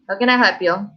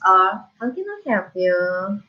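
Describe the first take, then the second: First: It is said in a rough, unfriendly tone. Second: It is said in a soft, friendly tone.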